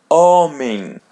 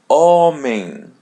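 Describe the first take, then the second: Both takes have the same delivery.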